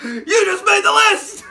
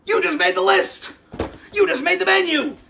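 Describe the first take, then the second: First: Loud, high, breaking into laughter; cracking up at his own joke threat; laughing shout. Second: Mock threat. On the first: Real, not acted. Joking that Bobby made the list, laughing loudly. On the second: Joking threat to Bobby.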